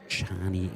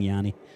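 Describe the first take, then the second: First: The name begins with a J sound. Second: The name begins with a Y sound. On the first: The speaker calls it right. "told to say Chani instead" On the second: The speaker calls it wrong. "was pulled up for for saying Yanni"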